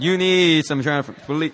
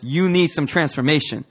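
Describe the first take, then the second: First: Sassy "need", leaned on; with attitude. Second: Said in the usual way. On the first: Shown as a demonstration. Preacher showing the congregation what to tell neighbors, with attitude. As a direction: say it to your neighbor with some attitude. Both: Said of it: "Say it with some attitude".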